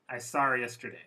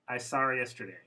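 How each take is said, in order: No difference in how they are said.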